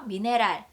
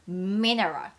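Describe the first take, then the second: First: It is said with Korean-style syllables. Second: It is said with an English pronunciation. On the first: The speaker calls it wrong. "미네랄 이러면 한국어 돼요" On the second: The speaker calls it right. "음 하고 들어가셔야 돼요"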